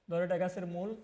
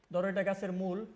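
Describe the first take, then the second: No difference in how they are said.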